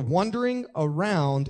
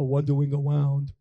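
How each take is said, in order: First: The r sounds are said as normal r sounds. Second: The r sounds are said like w sounds.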